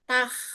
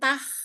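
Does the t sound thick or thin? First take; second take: thin; thin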